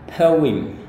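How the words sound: It is said with a British accent. "kalau mau gaya British itu adalah poem"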